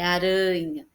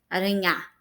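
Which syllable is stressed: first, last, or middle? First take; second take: middle; last. First: The stress is on the middle syllable. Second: The stress is on the last syllable. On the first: The speaker calls it right. "o som mais forte é o rã" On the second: The speaker calls it wrong. "E nem é o nhá"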